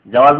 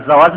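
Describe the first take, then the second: First: "জাওয়াজ" as jawaaz, opening on j; j-first pronunciation. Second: "জাওয়াজ" as zawaaj, opening on z; z-first pronunciation. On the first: Teacher explaining the passport word, "জাওয়াজ" said j-first. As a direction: start "জাওয়াজ" with j and close on z. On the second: Teacher explaining the marriage word, "জাওয়াজ" said z-first. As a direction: start "জাওয়াজ" with z and close on j. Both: Shown as a demonstration. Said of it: "জিমের জায়গায় জ হয়ে যায় তো অর্থ পাল্টিয়ে যাবে".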